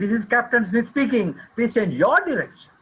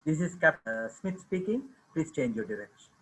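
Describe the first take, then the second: First: It is said in a raised, louder voice. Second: It is said at normal loudness.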